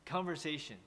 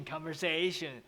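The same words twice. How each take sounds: First: "conversation" level at first, dropping on SAY; teacher's correct "conversation", flat then falling; corrected falling stress. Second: "conversation" with SAY stretched and raised; mock the learner's rising "conversation"; wrong rising stress. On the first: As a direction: keep "conver" flat and drop on "sation". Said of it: "Actually, it's". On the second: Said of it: "don't make it like". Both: Shown as a demonstration.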